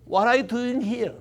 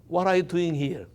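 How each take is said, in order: First: Said in the usual way. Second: Softer, hushed question; very quiet voice. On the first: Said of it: "큰 목소리도 아니고". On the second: Shown as a demonstration. God asking Elijah in the cave, very quietly. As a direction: ask it gently, almost under the breath. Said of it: "아주 조용한 목소리로".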